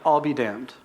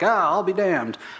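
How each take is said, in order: First: It sounds like a serious, earnest oath. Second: It sounds like an old-timer's casual exclamation.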